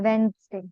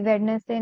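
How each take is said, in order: First: The middle d is silent, said as two syllables. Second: Every letter is sounded, including the middle d. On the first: The speaker calls it right. "इसको ये बोलते हैं वेंसडे" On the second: The speaker calls it wrong. "वेडनेसडे बोलते हैं लोग, but इसको बोलते हैं वेंसडे"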